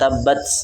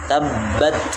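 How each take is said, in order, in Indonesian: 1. Huruf t terakhir memiliki desisan yang kuat. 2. Huruf t terakhir memiliki desisan yang ringan. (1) "Tapi tidak berlebihan, jangan" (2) "ada desisan yang keluar dari situ"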